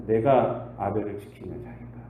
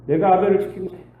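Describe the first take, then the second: First: Said in the usual way. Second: Defiant Cain. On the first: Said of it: "repeated take". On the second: Acted. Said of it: "repeated with attitude".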